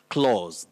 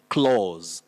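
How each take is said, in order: First: The vowel is a long 'aw' sound. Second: The same.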